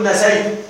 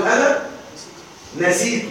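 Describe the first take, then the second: First: Mock error demo; teacher warns against saying نسيت with ay as nasaytu; wrong form nasaytu. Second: Teacher models the right form; Arabic teacher shows how to say نسيت with a long ī as nasītu; correct nisītu. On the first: المعلم يحذر من نطق نسيت نَسَيْتُ خطأ. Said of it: "وإياك أن تقول". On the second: المعلم ينطق نسيت بالياء الممدودة نَسِيتُ. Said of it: "نسي، أقول". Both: Shown as a demonstration.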